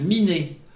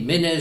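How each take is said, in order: First: The first vowel is i, not é. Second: The vowel is é and it ends in z. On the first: This is the form used in central Brittany. "dans le centre-Bretagne, Miné" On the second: This is the form used in Léon. "Ménez chez euh, les Léonards"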